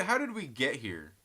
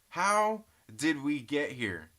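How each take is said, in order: First: Said in the usual way. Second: "How did we get here?" said slowly, every word stretched; drawn-out question. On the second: Shown as a demonstration.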